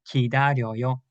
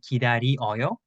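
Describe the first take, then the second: First: The vowels merge into one syllable. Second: The vowels stay separate in four syllables. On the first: "usually Koreans usually say 기다려요 like 요" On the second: "There are some people that can write and say 기다리어요. That's also correct"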